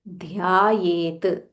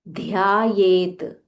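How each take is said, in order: The two takes are said the same way.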